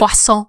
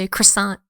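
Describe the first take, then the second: First: It is pronounced with a French-style pronunciation. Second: It is pronounced with an English-style pronunciation. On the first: "we don't say croissant" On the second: "we just say croissant"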